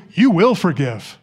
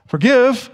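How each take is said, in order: First: Slow, with WILL insisted on; emphatic command. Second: Said in the usual way. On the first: Shown as a demonstration. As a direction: make "you will forgive" a non-negotiable order, slowly. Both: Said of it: "He makes that command emphatic".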